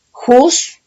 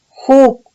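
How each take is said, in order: First: "juz" said with a final z sound; "juz" ending in a clear z; "juz" with a buzzing z on the end; mispronounced first try. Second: "ju" said with no final consonant; "ju" cut off cleanly after the u; "ju" as a bare syllable, no ending; corrected pronunciation. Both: Shown as a demonstration. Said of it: "no, ju".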